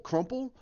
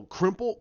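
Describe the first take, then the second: First: "crumple" with the uh vowel of crumb, rising; correcting to "crumple" with a lifted tune; corrected word. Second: "crimple" with an i vowel, like crimp; stumbling on "crimple" before the fix; slip of the tongue. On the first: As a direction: fix the slip to "crumple". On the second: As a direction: say "crimple" as the mistaken word. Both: Real, not acted.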